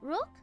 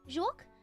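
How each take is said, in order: First: It is said in a southern Vietnamese accent. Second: It is said in a northern Vietnamese accent. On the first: "if you have the southern accent" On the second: "I call it juoc because I'm I, I speak communist Vietnamese"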